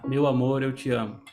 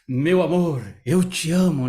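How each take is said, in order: First: It is said flat, like a robot. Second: It is said with lively, varied expression.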